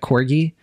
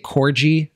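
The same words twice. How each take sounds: First: The middle consonant is a hard G. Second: The middle consonant is a J sound. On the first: The speaker calls it right. "I know the correct pronunciation" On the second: The speaker calls it wrong. "I like to say J instead of G"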